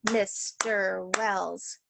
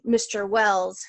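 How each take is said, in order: First: "Mister Wells" very slow, each syllable separate; teacher counting the beats of a name, drawn out slowly; syllables clapped out. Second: Said in the usual way. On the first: Shown as a demonstration. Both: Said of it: "has three syllables".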